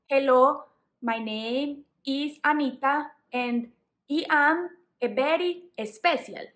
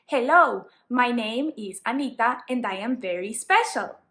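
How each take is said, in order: First: Heavy Spanish accent, careless English pronunciation; thick Latino accent, "very" as "beri", "special" as "espesial". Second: Latino accent with careful, correct English pronunciation; clearly pronounced English in a Latino accent; accented but correct. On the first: Teacher showing learners what to avoid, thick Latino accent with wrong sounds. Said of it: "didn't care about my pronunciation". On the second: Teacher showing learners what is okay, Latino accent with correct pronunciation. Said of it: "made sure that my pronunciation was correct". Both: Shown as a demonstration.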